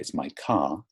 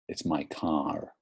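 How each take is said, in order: First: The final r in car is not pronounced. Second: The final r in car is clearly pronounced. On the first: "There's no er sound" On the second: "U S English is like this. They always say my car"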